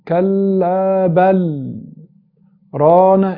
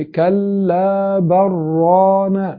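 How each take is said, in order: First: There is a full stop after 'bal'. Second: 'Bal' runs straight into 'rana' without a break. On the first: The phrase is cut apart, spoiling the meaning. "انت كده وقفت" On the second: The words merge, spoiling the meaning. "انت كده وصلت"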